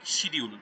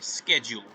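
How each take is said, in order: First: The word is said with a Bengali pronunciation. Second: The word is said with an American pronunciation. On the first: "যেটাকে আমরা বাংলায় বলি শিডিউল" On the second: "American অ্যাকসেন্টে কথা বলছে"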